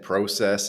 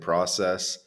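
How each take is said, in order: First: It is said with a Canadian-sounding vowel. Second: It is said with an American-sounding vowel. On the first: This was the speaker's original way of saying it. "stopped saying process" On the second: This was picked up from time spent in the US. "started saying process"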